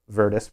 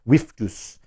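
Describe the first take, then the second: First: It is said with an English pronunciation. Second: It is said with a Latin pronunciation. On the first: "We can call it that in English language" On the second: "but in Latin it was Viftus, with that pronunciation"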